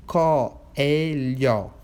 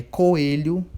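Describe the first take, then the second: First: Said in the usual way. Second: Coelho drawn out slowly; slow example word. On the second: Shown as a demonstration. Teacher models an animal name for pupils, slowly. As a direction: stretch coelho to show the split vowels. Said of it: "um exemplo".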